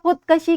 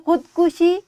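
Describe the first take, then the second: First: The second syllable has an 'a' vowel. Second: The second syllable has a 'u' vowel. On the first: The speaker calls it wrong. "गलत तलफ़्फ़ुज़ है" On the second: The speaker calls it right. "सही तलफ़्फ़ुज़ है"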